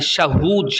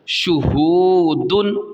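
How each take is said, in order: First: The first vowel is an 'a' sound. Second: The first vowel is a 'u' sound. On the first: The speaker calls it wrong. "शहूद शाहू पढ़ जाते हैं, यानी जो ये पेश है ना ज़म्मा को वो ज़बर पढ़ जाते हैं" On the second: The speaker calls it right. "यहाँ पे ज़बर नहीं है बल्कि पेश है"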